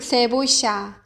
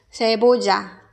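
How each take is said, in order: First: The double L sounds like sh. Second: The double L sounds like a j. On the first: "아르헨티나, 칠레 쪽은 세보샤" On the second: "아마도 멕시코에서는 세보자"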